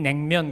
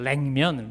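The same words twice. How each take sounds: First: The word begins with an n sound. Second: The word begins with an l sound. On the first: This is how the South says it. "우린 냉면 그러죠" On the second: This is how the North says it. "리을 발음으로 그렇게 말합니다"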